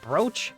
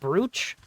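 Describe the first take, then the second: First: The vowel is a long 'oh', like coach. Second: The word is sounded out as it is spelled. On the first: This is how people actually say it. "but pronounced brooch" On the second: This is how the spelling looks. "it is spelled brooch"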